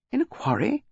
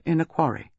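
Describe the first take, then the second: First: QUARRY pitched high as an incredulous question; stunned, high-pitched rising question; astonished. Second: Said in the usual way. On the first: A narrator's reading. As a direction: echo "In a quarry?" in high disbelief. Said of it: "His astonishment was evident".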